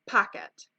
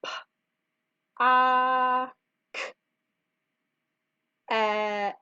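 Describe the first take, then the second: First: Said in the usual way. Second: "p, a, k, et" with long pauses between sounds; sounded out. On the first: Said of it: "The kangaroo has a pocket". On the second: Shown as a demonstration. Teacher decodes pocket for kindergartners, sound by sound. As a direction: isolate each of "p, a, k, et", holding the "a". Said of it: "So it's".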